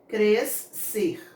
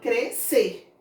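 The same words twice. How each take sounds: First: The S and C are sounded separately. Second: The S and C merge into one sound. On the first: The speaker calls it wrong. "eu não falo o S C" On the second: The speaker calls it right. "Eu falo crescer"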